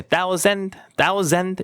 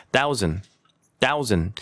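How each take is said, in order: First: "thousand" as "thau-ZEND", full second vowel and D; overfull "sand" ending. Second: "thousand" as "thau-zn", last vowel swallowed; reduced ending. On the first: Teacher showing what not to say, overfull ending. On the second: Teacher giving the corrected version, reduced ending. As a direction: let "thousand" fall away without the D. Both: Shown as a demonstration. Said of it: "이렇게 하면 안 되고".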